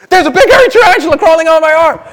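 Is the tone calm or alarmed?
alarmed. It is said with sudden alarm.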